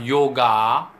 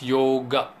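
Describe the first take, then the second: First: The final vowel is said full and complete. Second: The final vowel is cut short, not completed. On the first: The speaker calls it wrong. "it's not yoga" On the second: The speaker calls it right. "it's yoga, right? ... the last A is uh, not completed as A"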